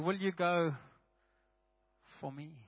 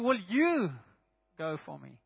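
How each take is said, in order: First: The word me carries the emphasis. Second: The word you carries the emphasis. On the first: The going is done on behalf of God. "And then lastly" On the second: The question is aimed personally at the listener. "Then the second word is you"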